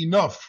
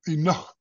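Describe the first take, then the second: First: It sounds like the ordinary English word enough. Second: It is said with a breathy h-like sound. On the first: This is how the spelling reads today. The speaker calls it wrong. "if we were to pronounce that today, that would be enough" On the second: This is the sound the old spelling tried to record. The speaker calls it right. "What they're trying to do is pronounce the sound for H"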